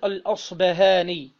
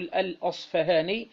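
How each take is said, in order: First: The middle consonant is pronounced as b. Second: The middle consonant is pronounced as f. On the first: "بدل الفاء باء" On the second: "بالفاء"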